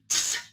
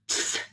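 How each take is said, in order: No difference in how they are said.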